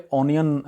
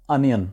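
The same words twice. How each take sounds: First: "اونین" opening on a round "o"; common mispronunciation. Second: "انین" opening on short "uh"; correct pronunciation. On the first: Teacher shows the usual wrong onion, mispronounced. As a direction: say "اونین" as "ON-yun". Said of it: "جو کہ غلط ہے". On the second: Teacher gives correct pronunciation of onion, clear model. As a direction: say "انین" as "UN-yun". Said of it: "اس کی صحیح pronunciation ہے". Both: Shown as a demonstration.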